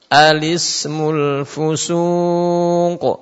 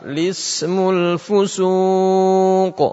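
First: The phrase begins with a short vowel before L. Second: The phrase begins directly with the L sound. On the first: This is the more commonly used reading. "Ini yang pertama" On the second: This is the less commonly used reading. "Yang kedua, ... langsung lismu"

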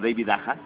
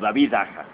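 First: The name is pronounced the English way. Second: The name is pronounced the Spanish way. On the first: The speaker calls it wrong. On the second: The speaker calls it right.

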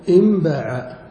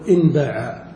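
First: The n before b is said as m. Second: The n before b is kept as n. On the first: The speaker calls it right. "تنطق بقلب النون ميما" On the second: The speaker calls it wrong. "ولا يصح أن نقول"

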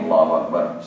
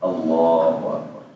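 First: The phrase is said clipped and too short. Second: The phrase is said at a moderate length. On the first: The speaker calls it wrong. "terlalu pendek" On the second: The speaker calls it right. "Yang benar adalah"

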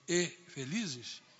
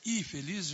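First: The word 'e' is kept clearly separate. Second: The word 'e' merges into the next word. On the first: They were happy. The speaker calls it right. "Eu faço questão de dizer e felizes" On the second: They seem to be unhappy. The speaker calls it wrong. "se você disser e felizes, no rádio pode parecer infeliz"

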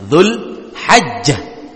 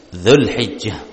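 First: The vowel after the h is 'a'. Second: The vowel after the h is 'i'. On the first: This is a rare variant. "dengan ha yang difathahkan" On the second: This is the common variant. "Yang masyhur"

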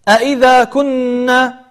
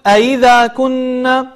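First: Both glottal stops are clearly pronounced. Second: One glottal stop is weakened. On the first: The speaker calls it right. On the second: The speaker calls it wrong.

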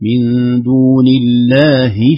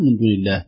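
First: The last word ends in an 'i' vowel. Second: The last word stops with no final vowel. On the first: The phrase runs on into the next word. "لكن لو وصلنا من دون الله شفعاء هكذا" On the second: The reader pauses for breath here. "لو وقفنا عليها للنفس"

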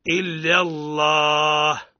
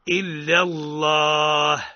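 First: The L in Allah is heavy and velarized. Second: The same.

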